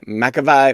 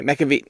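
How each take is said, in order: First: "McAvey" ending like "vye"; "McAvey" said as mack-uh-VYE; McAvey ending in long I. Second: "McAvey" ending like "vee"; "McAvey" said as mack-uh-vee. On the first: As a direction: rhyme the end of "McAvey" with "eye". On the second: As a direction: rhyme the end of "McAvey" with "see". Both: Shown as a demonstration. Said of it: "maybe that's an I".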